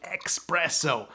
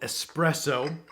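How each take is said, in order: First: The word is said with an x sound. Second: The word is said with a plain s sound.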